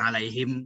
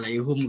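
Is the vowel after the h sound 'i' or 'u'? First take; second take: i; u. First: The syllable after the h has an i vowel. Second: The syllable after the h has a u vowel. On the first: This is the common reading. "boleh alaihim gambreng" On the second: This is the reading of another recitation tradition. "boleh juga alaihum gambreng"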